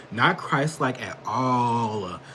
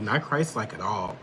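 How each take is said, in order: First: Not Christ-like at all, slowed right down; slow emphatic repeat. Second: Said in the usual way. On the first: Real, not acted.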